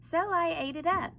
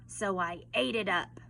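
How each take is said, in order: First: The voice sounds casual and innocent. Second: The voice sounds angry and menacing. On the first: The speaker is not guilty. "it makes the wolf sound less guilty" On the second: The speaker is guilty and dangerous. "he sounds a little more angry and a little more scary"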